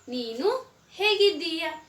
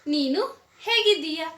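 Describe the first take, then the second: First: It is said a little faster. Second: It is said at full speed.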